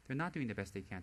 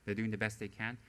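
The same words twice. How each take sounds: First: Not stressed against the earlier they can. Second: Said in the usual way. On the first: Shown as a demonstration. Correcting herself about devoted students, stress on not.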